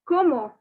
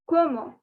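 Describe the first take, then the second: First: The word ends in a vowel sound. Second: The word ends in a vowel sound.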